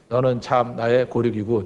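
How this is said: It is said in a disappointed, flat tone.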